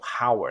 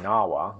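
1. 这个词开头有可以听到的 h 音。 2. 这个词以元音开头，没有 h 音。

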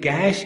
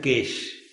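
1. शब्द मानक स्वर के साथ कहा गया है। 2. शब्द गुजराती लहजे में कहा गया है। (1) "In Gujarati, cash is pronounced as cash" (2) "In Gujarati, cash is pronounced as cash"

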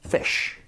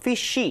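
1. 강세가 있는 한 음절이고, 모음은 더 붙지 않아요. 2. 마지막 소리 뒤에 모음이 하나 더 붙어요. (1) "i의 강세를 줘서 한음절로다가" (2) "fishy 이렇게 하지 마시고"

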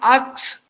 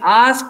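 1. शब्द 'k' और फिर 's' की ध्वनि से खत्म होता है। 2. शब्द 's' और फिर 'k' की ध्वनि से खत्म होता है। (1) "they say ax" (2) "Instead of saying ask"

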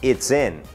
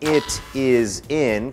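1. คำเหล่านี้ย่อและเชื่อมติดกัน 2. แต่ละคำพูดแยกกัน ไม่เชื่อมเสียง

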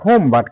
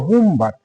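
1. প্রথম শব্দে 'oh' স্বরধ্বনি আছে। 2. প্রথম শব্দে 'oo' স্বরধ্বনি আছে। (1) "সবাই বলে হোম বাট" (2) "আমরা এখন উচ্চারণটা কিভাবে করব"

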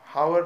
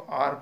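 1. शब्द की शुरुआत h ध्वनि से होती है। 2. शब्द की शुरुआत एक स्वर ध्वनि से होती है। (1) "हावर नहीं है" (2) "इसको आर पढ़ा जाता है"

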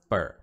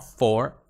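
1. A palavra tem uma vogal curta e reduzida. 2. A palavra tem uma vogal plena e aberta. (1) "o outro é o curto, né? Que é, vira um fur" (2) "eu falo for, normal"

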